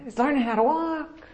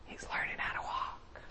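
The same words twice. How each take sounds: First: Voiced and high, pleased; a delighted God proudly announcing; proud announcement. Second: Hushed whisper of delight; a soft whisper shared with Gabriel. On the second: Pretend. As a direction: whisper it like a proud parent watching. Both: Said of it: "he's like".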